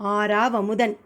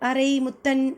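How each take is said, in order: First: The name is said as one word, aaravamudhan. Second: The name is split into two words, arai muthan. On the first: The speaker calls it right. "ஆறாவமுதன். Meaning nectar honey" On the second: The speaker calls it wrong. "அவரு அரை முத்தன் இல்ல மாட்"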